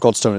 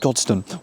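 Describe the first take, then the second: First: The second vowel is a full vowel. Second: The second vowel is reduced to a schwa. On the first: The speaker calls it wrong. "It's not Godstone" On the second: The speaker calls it right. "it's Godstone"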